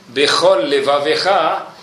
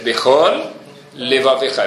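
First: The two words run together without a break. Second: The two words are separated by a slight break.

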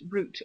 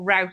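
First: The word is said in a British accent. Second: The word is said in an American accent.

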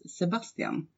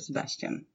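First: The name is said with a Swedish pronunciation. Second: The name is said with an American pronunciation.

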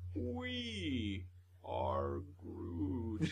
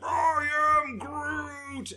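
First: It is said softly and tenderly. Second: It is said fiercely, like a battle cry.

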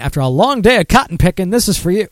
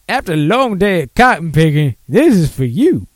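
First: It is read in the speaker's plain voice. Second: It is read in an exaggerated caricature accent.

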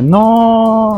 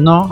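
First: The word is long and drawn out. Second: The word is short and forceful.

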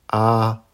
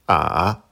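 First: The pitch stays high and level. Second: The pitch dips low, then rises. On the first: "Avec le premier ton" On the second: "Troisième ton"

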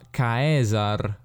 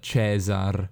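First: It is said in the classical Latin pronunciation. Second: It is said in Italian-style ecclesiastical pronunciation. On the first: This is how it was said in ancient Latin. The speaker calls it right. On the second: This is the later church pronunciation. The speaker calls it wrong. "non Cesar"

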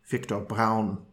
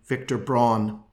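First: The name is pronounced the German way. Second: The name is pronounced the English way.

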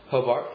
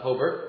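First: Hobart is said with an Australian pronunciation. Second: Hobart is said with an American Midwestern pronunciation. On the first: It names the city in Tasmania. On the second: It names the town in Indiana.

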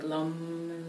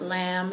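First: The vowel sounds like the 'u' in cup. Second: The vowel sounds like the 'a' in cat. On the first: The speaker calls it right. "it's the A and the O, like lum" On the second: The speaker calls it wrong. "it's not pronounced lamb. It's not lamb"

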